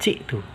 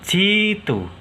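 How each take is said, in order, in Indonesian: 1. Hamzah diucapkan setelah vokal pertama. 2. Hamzah diganti dengan vokal panjang. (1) "bukan jitu" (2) "Hamzahnya diganti ya"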